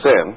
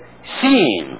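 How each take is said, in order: First: The word is said in a plain, ordinary voice. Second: The word is said in an affected preacher voice. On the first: This is the normal everyday way of saying it. "They can't say sin" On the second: This is the affected way preachers are taught to say it. "They have to say sin"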